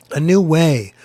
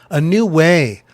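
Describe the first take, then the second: No difference in how they are said.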